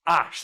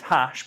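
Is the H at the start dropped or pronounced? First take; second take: dropped; pronounced. First: The word begins without an H sound. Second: The word begins with an H sound. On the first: "you do not pronounce that fucking H" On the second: "and it's hash, but you you don't pronounce that"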